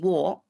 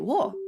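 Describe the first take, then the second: First: It is said with the usual tone. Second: It is said with a different tone. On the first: It means 'me'. "that's me" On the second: It means something other than 'me'. "That's something else"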